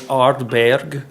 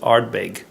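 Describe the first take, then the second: First: The name is said with a German-style pronunciation. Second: The name is said with an English-style pronunciation. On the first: "I was calling it Ardberg, uh, German style almost" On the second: "It's Ardbeg, or I don't even know if it's pronounced that way"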